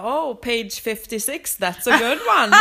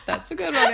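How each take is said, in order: First: Slow teasing drawl breaking into a loud laugh; mock the reader slowly, then crack up; hammed-up teasing animator, laughing loud. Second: Laughing. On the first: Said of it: "Och han bara". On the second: Retold or imitated. Repeating the line while laughing.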